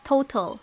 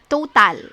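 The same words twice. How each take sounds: First: The unstressed vowel is reduced to almost nothing. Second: The unstressed vowel is fully pronounced. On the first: The speaker calls it right. "It's total" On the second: The speaker calls it wrong. "not total"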